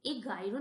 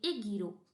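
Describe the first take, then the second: First: "एगाइरो" with "gai" in the middle; the rejected reading "एगाइरो", middle vowel "ai"; mispronunciation demo. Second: "एगीरो" with long "gee" in the middle; teacher's model "एगीरो", middle vowel "ee"; correct pronunciation demo. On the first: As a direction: say "एगाइरो" with an "ai" diphthong. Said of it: "एगाइरो नहीं पढ़ते". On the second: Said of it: "इसको हम एगीरो पढ़ेंगे". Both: Shown as a demonstration.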